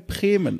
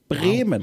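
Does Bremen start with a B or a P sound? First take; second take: P; B. First: It is said the Franconian way, B like P. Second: It is said in standard German with a B.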